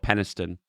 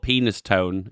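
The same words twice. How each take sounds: First: "Penistone" run together as one word, PEN-is-tun, a bit softer; local pronunciation. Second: "Penis Tone" as two words, PEE-nis TONE; wrong pronunciation. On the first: Local correcting chat, the right "Penistone" quietly. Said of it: "it's not called Penis Tone". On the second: Local correcting chat, saying the wrong way "Penis Tone". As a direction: split it into "Penis Tone". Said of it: "It's called Penistone". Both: Shown as a demonstration.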